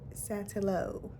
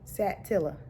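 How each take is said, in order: First: The name ends in an 'oh' sound. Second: The name ends in a soft 'ah' sound. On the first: The speaker calls it wrong. "Not Satillo" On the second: The speaker calls it right. "they pronounce it Satilla"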